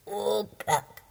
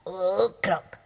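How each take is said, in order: First: Dull toad croak, slow and falling. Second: Louder, rasped toad croak. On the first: Toad son answering his mother with a croak. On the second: Toad son croaking again at the bride, louder. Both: Acted.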